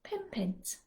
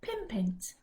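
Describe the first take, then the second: No difference in how they are said.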